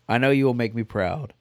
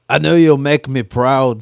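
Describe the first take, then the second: First: It is read in the speaker's normal voice. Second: It is read in a put-on Scottish accent. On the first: "You didn't do it in a voice like the audiobooks" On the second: "That's like the closest"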